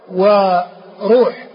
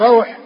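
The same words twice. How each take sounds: First: وروح said wa-ROOH, long u; وروح with damma on the r. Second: روح said RAWH, an a gliding into w; روح with fatha on the r, silent-vowel w. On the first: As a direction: stretch وروح slowly as wa-ruuh. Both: Shown as a demonstration. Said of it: "الفرق بالفتح والضم".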